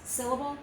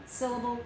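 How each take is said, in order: Both takes have the same delivery.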